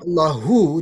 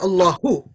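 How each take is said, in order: First: The final vowel is drawn out long. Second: The final vowel is kept short. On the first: It adds 'his' onto Allah. "if they make it long" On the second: It is just Allah in the nominative case. "If you say Allahu short"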